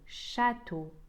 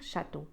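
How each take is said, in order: First: The first a vowel is lengthened. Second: The first a vowel is short. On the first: The speaker calls it right. "أطيل حرف ال A" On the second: The speaker calls it wrong. "Je ne vais pas dire château"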